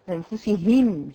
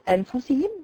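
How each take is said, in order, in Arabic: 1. تُقرأ بوضوح مع نطق صوت الهاء. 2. تُقرأ بسرعة فيسقط صوت الهاء.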